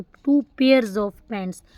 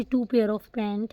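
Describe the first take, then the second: First: Slow, careful "two pairs of pants"; very slow correct model phrase; correct form. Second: Said in the usual way. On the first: Shown as a demonstration. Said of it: "ऐसे बोलोगे कि टू।". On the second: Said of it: "आप ऐसे नहीं बोल सकते कि".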